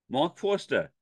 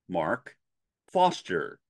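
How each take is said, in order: First: It is said in a New York accent. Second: It is said in a General American accent. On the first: The speaker calls it wrong. "I used to have a New York City accent" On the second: The speaker calls it right. "the correct way to say it from an, a general American standard English version"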